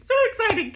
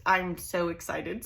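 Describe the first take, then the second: First: High, loud excited squeal. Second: Said in the usual way. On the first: Real, not acted. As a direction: burst with real excitement. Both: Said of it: "Can you tell?".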